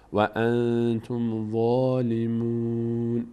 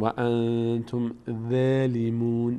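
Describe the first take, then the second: First: The ظ sound is full and heavy. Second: The ظ sound is thin and light. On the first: The speaker calls it right. "پر خونده میشه" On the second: The speaker calls it wrong. "نمیگیم و انتم ظالمون"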